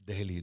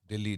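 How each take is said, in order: First: The first vowel is 'e' followed by 'h'. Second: The first vowel is 'i' with double 'l'. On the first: The original name found on old coins. "D E H L I. This is the real pronunciation or the original pronunciation" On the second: A shortened, everyday form of the name. "some people even call it Delhi. Delhi, D I L L I"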